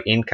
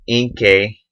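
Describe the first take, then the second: First: Inkai ending like "eye"; Inkai, last syllable rhyming with "sky"; alternative pronunciation. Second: Inkay ending like "kay"; slow Inkay, last syllable rhyming with "day"; first pronunciation. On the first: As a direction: say Inkai with a long I at the end. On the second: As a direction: say Inkay with a long A at the end. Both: Real, not acted. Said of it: "or Inkai, I guess".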